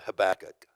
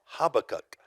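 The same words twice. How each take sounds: First: "Habakkuk" said huh-BACK-uk, stress on the second syllable. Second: "Habakkuk" said HAH-buh-kuk, open first syllable stressed. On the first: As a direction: say "Habakkuk" with a short first syllable and the weight on BACK. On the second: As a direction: start "Habakkuk" on a broad HAH and let the rest fall away. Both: Shown as a demonstration. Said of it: "How would you pronounce that word".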